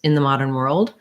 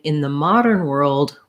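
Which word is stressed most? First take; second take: world; modern. First: The strongest stress falls on world. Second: The strongest stress falls on modern. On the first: It is just a regular phrase. "world is going to have my primary stress" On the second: It contrasts now with earlier times. "I'm going to have more stress on modern"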